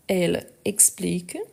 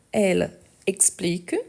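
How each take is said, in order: Both takes have the same delivery.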